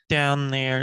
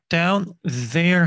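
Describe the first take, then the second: First: The n swallows the th, linking the words. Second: The th sound in 'there' is clearly pronounced. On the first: "여기 있는 n이 th를 밀어버리고 생략해버리고 이렇게 지금 붙은 거죠" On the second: "down there 하지 않고"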